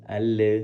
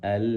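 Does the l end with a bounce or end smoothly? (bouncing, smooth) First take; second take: bouncing; smooth. First: The l ends with a bouncing release. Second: The l ends smoothly with no bounce. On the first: The speaker calls it wrong. "nah itu kan terdengar mantul ya" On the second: The speaker calls it right. "kayak tadi yang barusan saya sampaikan"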